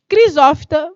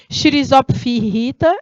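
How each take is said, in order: First: The first consonant is a hard 'k' sound. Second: The first consonant is a soft 'sh' sound. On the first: The speaker calls it right. "C H, geralmente tem só o som do C" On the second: The speaker calls it wrong. "O pessoal fala Crisófita, não é assim"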